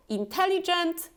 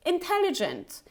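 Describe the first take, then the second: First: Intelligent with tense "ee" vowels, higher; wrong long vowel. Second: Intelligent with short, lax "ih" vowels; correct short vowel. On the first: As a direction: mispronounce intelligent as "een-tel-lee-gent". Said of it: "we pronounce it as this short E". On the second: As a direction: say intelligent as "in-TEL-ih-jent". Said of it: "it's intelligent". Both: Shown as a demonstration.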